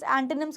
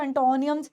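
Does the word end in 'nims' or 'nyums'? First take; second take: nims; nyums. First: The word ends with a short 'nims' sound. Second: The word ends with a drawn-out 'nyums' sound. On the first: The speaker calls it right. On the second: The speaker calls it wrong.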